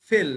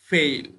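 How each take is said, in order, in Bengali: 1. স্বরধ্বনিটি একটি সরল, ছোট 'eh' ধ্বনি। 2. স্বরধ্বনিটি 'e' থেকে 'i'-তে গড়িয়ে যায়। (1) "ফেল না" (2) "উচ্চারণটা হচ্ছে ফেইল"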